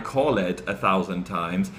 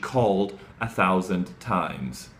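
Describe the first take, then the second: First: The -ed ending is an extra syllable. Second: The -ed ending adds no extra syllable. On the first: The speaker calls it wrong. "she didn't say" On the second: The speaker calls it right. "you just don't pronounce that E"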